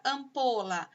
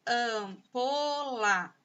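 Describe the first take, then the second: First: Said in the usual way. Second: "Ampola" very slow, stretched syllable after syllable. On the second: Shown as a demonstration. Teacher showing three sounds to pupils, "Ampola" syllable by syllable. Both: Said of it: "Ampola tem três sons".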